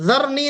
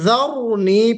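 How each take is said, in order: First: The r sound is thin and light. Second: The r sound is full and heavy. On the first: The speaker calls it wrong. "ज़रनी नहीं पढ़ेंगे" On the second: The speaker calls it right. "इसको भी हम पुर करके पढ़ेंगे"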